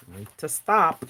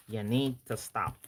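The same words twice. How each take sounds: First: Said in the usual way. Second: Softer, lower repeat; quieter mock plea. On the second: Real, not acted. Host pleads with Danielle, softer, mock. Teasing the planner maker.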